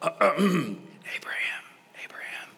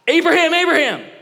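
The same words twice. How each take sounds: First: The name is said calmly and quietly. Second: The name is yelled loudly.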